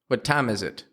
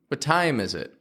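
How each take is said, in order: First: The vowel in time stays flat without a glide. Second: The vowel in time glides toward a y sound. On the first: The speaker calls it wrong. "They only go ah" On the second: The speaker calls it right. "Instead of time"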